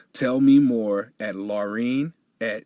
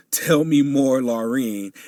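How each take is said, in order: First: Said in the usual way. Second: "Tell me more" said much louder and higher, pushing each word; emphatic correction. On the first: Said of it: "oh my God, I messed that up". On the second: Shown as a demonstration. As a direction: redo the name, loud and emphatic, stressing "Tell me more". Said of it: "I messed that up".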